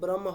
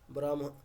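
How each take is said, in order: First: The h sound comes from the throat. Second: The h sound comes from the chest. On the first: The speaker calls it wrong. "হকারটা কণ্ঠ দিয়ে হচ্ছে" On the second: The speaker calls it right. "আগে বললে হকারটা ওখান থেকে হচ্ছে"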